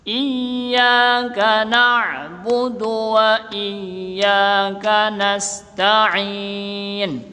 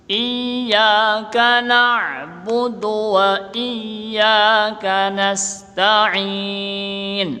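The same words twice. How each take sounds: The two takes are said the same way.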